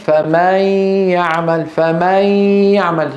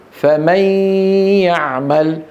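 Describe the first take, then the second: First: فمن said as faamin, vowel drawn out; exaggerated wrong فمن; stretched fatha demo. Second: فمن with the fatha dragged toward an alif; mispronounced فمن with a lengthened fatha; wrong stretched vowel. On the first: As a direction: drag the fatha of فمن into an alif. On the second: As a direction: stretch the a in فمن too long. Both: Shown as a demonstration. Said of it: "تنطق خطأ".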